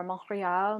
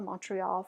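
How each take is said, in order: First: "Montreal" said the French way, R from the throat; French "Montreal", guttural R; French pronunciation. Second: Said in the usual way. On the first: Shown as a demonstration. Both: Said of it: "You may not hear it as much".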